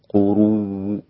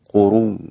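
First: The final sound ends with a faint partial vowel. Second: The final sound ends with no vowel at all. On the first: "الروم قروء هكذا، والروم هو الاتيان ببعض الحركة" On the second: "السكون قروء هكذا"

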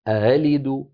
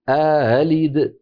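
First: The second glottal stop is softened. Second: A long vowel precedes the softened second stop. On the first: "بتسهيل الهمزة الثانية" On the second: "يدخل بين الهمزتين ألفا ليباعد بينهما"

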